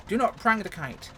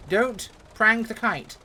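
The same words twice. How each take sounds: First: "not" punched, slow and deliberate; stressed NOT. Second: Slow, with "prang" hit hard and louder; stern self-warning. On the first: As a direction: split "Do not" and hit "not". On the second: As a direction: lean on "prang", drawing it out slowly. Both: Shown as a demonstration. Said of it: "One rule".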